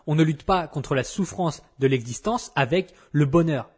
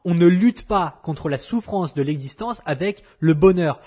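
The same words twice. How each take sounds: First: Said in the usual way. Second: Louder, pressing every word home; emphatic repeat. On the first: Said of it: "Je répète, parce que c'est hyper important". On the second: Shown as a demonstration. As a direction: hammer the point home for emphasis. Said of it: "parce que c'est hyper important".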